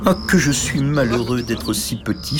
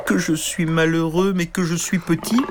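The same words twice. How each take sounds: First: Soupir plaintif à peine marqué; soupir triste. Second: Plainte lente et aiguë; gémir lentement, perdu; gémissement. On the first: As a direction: se lamenter en planant. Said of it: "soupirait-il". (léger soupir de tristesse) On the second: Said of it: "Il gémissait tant et tant". (gémissement lent et aigu) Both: Acted.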